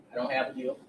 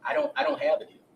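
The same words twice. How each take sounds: First: Said in the usual way. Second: Higher, louder 'I don't have a deal'; mock witness protesting too much; insistent denial. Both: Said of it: "Mister Jeffries is going to testify".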